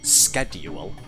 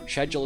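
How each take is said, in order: First: The word is said the American way. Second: The word is said the British way. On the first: The speaker calls it wrong. "We don't pronounce it schedule" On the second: The speaker calls it right. "Schedule is the British pronunciation"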